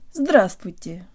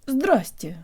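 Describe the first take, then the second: First: All syllables of the word are pronounced. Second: A syllable is dropped from the word.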